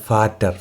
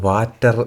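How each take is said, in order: First: The word begins with an F sound. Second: The word begins with a V sound. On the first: The speaker calls it right. "ഫാറ്റർ എന്നാണ് അതിനെ നമ്മൾ പ്രൊനൗൺസ് ചെയ്യുന്നത്" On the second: The speaker calls it wrong. "അല്ലാതെ വാറ്റർ എന്നല്ല"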